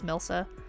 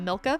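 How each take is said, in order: First: The middle consonant is an S sound. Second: The middle consonant is a K sound. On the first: The speaker calls it right. "It is not Milka. It is" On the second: The speaker calls it wrong. "they always pronounce it uh"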